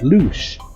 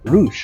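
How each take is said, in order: First: The name begins with an L sound. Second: The name begins with an R sound. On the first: The speaker calls it right. "no, it's loosh" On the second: The speaker calls it wrong. "be so used to pronouncing it as an R"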